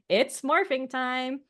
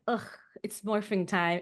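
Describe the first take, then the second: First: It is said with a forced, fake cheerfulness. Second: It is said in an openly annoyed groan.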